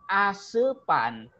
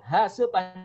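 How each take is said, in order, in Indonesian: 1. Kata ini langsung diawali dengan vokal. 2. Kata ini diawali dengan bunyi h. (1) "jadi asepan" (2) "lidahnya nggak bisa mengatakan ha"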